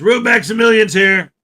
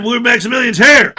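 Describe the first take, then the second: First: Said in the usual way. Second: Emphatic repeat announcement. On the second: Shown as a demonstration. Host re-announcing an arrival to viewers, emphatic repeat. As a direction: hit HERE harder at the end.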